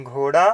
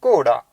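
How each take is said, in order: First: घोड़ा with a breathy gh and a rising end; Hindi gh. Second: कोड़ा with an unaspirated k and a falling tone; Punjabi tone. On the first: Teacher contrasting with Hindi, घोड़ा with breathy gh. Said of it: "Hindi में हम घ से घोड़ा". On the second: Teacher showing the Punjabi way, कोड़ा with a falling tone. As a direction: say कोड़ा with a clipped k, the pitch dropping. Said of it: "Punjabi में घग्गे नाल". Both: Shown as a demonstration.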